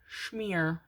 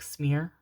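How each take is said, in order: First: The word begins with an 'sh' sound. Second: The word begins with an 's' sound. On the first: "Schmear, schmear instead of like smear" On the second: "instead of like smear"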